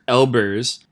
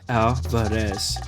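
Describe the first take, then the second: First: The name is said without a trilled R. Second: The name is said with a wide A, trilled R. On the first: The name is mispronounced by someone unfamiliar with it. The speaker calls it wrong. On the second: The name is said the way its owner says it. The speaker calls it right.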